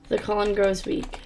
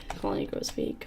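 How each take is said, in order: First: Said in the usual way. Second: Whispered, ominous; eerie whisper. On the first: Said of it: "repeated unvoiced". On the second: Shown as a demonstration. Player whispering the game's ominous warning. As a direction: breathe the warning with no voice. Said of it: "repeated after plain take".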